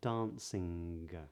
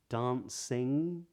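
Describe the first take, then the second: First: The word ends with a hard G sound. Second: The word ends without a hard G sound. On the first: "but not" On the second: "they do not pronounce a hard G at the ends of these words"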